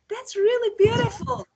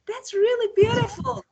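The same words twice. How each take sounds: First: It sounds excited and happy, with lively pitch. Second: The same.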